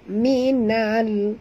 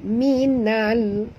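No difference in how they are said.

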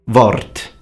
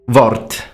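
Both takes have the same delivery.

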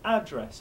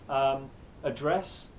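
First: It has the American English stress pattern. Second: It has the British English stress pattern. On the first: "American English" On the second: "for your British English"

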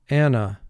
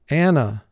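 First: The word is said smoothly as in everyday speech. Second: The same.

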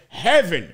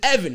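First: The name starts with an added h sound. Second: The name starts with a vowel, no h. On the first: The speaker calls it wrong. "stop saying the H" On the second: The speaker calls it right. "his name is Evan"

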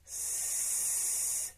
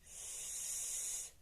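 First: The sound is said somewhat louder. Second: The sound is said quietly. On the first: "ще голосніше" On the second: "Спочатку «с»"

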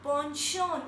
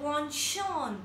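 First: The word begins with a 'pon' sound. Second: The word begins with a 'pon' sound.

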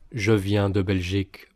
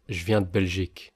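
First: The e vowels in je and de are pronounced. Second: The e vowels in je and de are dropped. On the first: "so I'm not saying je viens de Belgique" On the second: "Note how I'm dropping the E's"

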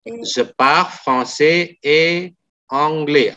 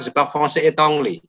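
First: The sentence is spoken at a slower pace. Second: The sentence is spoken quickly with linked words.

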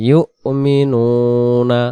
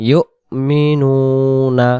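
Both takes have the same delivery.

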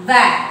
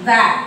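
No difference in how they are said.

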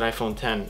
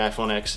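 First: The last part is said as the number ten. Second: The last part is said as the letter X. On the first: The speaker calls it right. "I'll pronounce it iPhone 10" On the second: The speaker calls it wrong. "I won't say iPhone X"

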